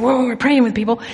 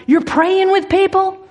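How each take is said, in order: First: Understated sheepish reply; mildly sheepish retold answer; embarrassed admission. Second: High-pitched incredulous question; imitating a loud, challenging woman; mock loud disbelief. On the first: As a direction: own up to it with slight embarrassment. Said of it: "I was embarrassed to admit it". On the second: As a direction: echo it back high, as if announcing it to all. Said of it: "she says very loudly".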